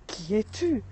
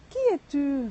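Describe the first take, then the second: First: Put-on boy calls out toward the mountain, a touch louder; calling out. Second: Echo reply. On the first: Boy calling into the forest, mildly raised. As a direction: call the question out to the unseen voice. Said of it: "il crie". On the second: Acted. Mountain echo answering the boy, louder and higher. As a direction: echo throws the question back, louder and higher. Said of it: "la réponse qu'il reçoit".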